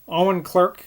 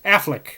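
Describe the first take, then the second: First: The name is said with three syllables, as spelled. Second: The name is said with two syllables, like Affleck. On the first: The speaker calls it wrong. "I've been pronouncing totally wrong" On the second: The speaker calls it right. "is pronounced Affleck"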